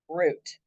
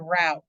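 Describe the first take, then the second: First: The vowel sounds like the one in 'boot'. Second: The vowel sounds like the one in 'out'. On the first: This is how it is said where the speaker grew up. "where I grew up, we say R O U T E, root" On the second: This is how it is said locally. "they here they say route"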